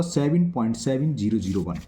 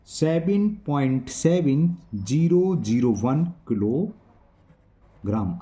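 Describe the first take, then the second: First: Said in the usual way. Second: Very slow, drawn-out digit by digit; slow dictation. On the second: Real, not acted. Teacher writing out the answer for students, slow dictation. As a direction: stretch out each number as if writing it.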